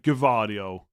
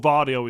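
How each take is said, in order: First: The name starts with a clear G sound. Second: The name starts without a G sound. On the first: The speaker calls it wrong. "they're really pronouncing the G" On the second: The speaker calls it right. "I'm pretty sure Vardio is correct"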